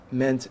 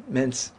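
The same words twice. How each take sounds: The two takes are said the same way.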